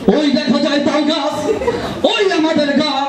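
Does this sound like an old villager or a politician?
politician. It is declaimed like a speech addressing a crowd. A political leader is addressing a crowd. "রাজনৈতিক নেতা তার মঞ্চে মানে জনতাদের উদ্দেশ্যে বলে"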